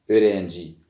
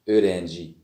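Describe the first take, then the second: No difference in how they are said.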